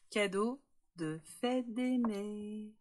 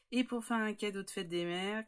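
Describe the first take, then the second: First: "cadeau de fête des mères" stretched slowly, each word weighted; "cadeau de fête des mères" said slow and deliberate like a headline; drawn-out announcement. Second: Said in the usual way. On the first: Acted. Announcing the gift theme.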